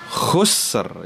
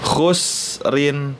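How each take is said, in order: First: The word stops on two clear final consonants. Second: The word ends with an added nasal syllable.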